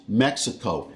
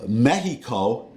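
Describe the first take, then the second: First: Mexico as MEK-suh-koh; American pronunciation. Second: Mexico as MEH-hee-koh; Spanish pronunciation. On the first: Telling viewers his way, Mexico as MEK-suh-koh. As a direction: say Mexico with a KS sound. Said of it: "I pronounce". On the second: Setting up his contrast, Mexico as MEH-hee-koh. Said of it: "I pronounce Mexico". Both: Shown as a demonstration.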